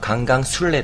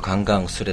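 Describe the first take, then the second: First: It is said with Korean sounds. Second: It is said with Japanese-style sounds. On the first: "本当はカンガンスレですね" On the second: "日本語で言うとカンガンスレだけど"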